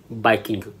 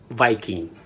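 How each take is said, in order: First: "Viking" as "baikingu", lower-pitched, b for v; Japanese pronunciation. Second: Said in the usual way. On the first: Shown as a demonstration. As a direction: say "Viking" as bai-kin-gu. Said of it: "Viking or Vikingu". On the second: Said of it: "Word number three is".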